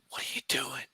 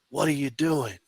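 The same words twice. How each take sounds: First: The question is whispered very quietly. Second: The question is said in a louder voice. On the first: "I whispered it just like that" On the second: "I go a little bit louder"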